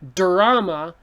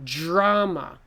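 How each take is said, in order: First: The first sound is a clear, plain D. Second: The first sound is close to a J. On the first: The speaker calls it wrong. "don't say drama" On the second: The speaker calls it right. "This D is almost like a J sound again"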